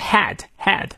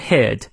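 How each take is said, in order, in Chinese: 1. 这个元音发音时，嘴巴张开较宽。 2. 这个元音发音时，嘴巴张开较窄。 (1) "不要念成head 嘴型就太大了" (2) "也是小a"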